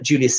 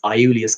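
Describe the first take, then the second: First: The name begins with a hard J sound. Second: The name begins with a soft Y sound. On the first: The speaker calls it wrong. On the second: The speaker calls it right.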